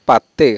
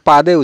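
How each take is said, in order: First: The middle consonant is a t sound. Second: The middle consonant is a soft d sound. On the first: The speaker calls it right. "এখানে ত উচ্চারণ হবে" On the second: The speaker calls it wrong. "আমরা কিন্তু বেশিরভাগে পাদে উচ্চারণ, দ উচ্চারণ করে থাকি"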